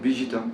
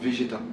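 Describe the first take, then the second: First: The name is said the Japanese way. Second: The name is said the French way.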